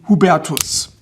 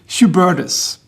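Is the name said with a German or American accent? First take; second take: German; American. First: The name is said with a German pronunciation. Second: The name is said with an American pronunciation.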